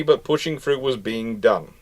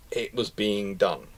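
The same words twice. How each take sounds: First: Said in the usual way. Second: "It was being done" dropped much softer, a slowed murmur; quiet echo. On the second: Shown as a demonstration. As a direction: let "It was being done" fall away quietly and slowly.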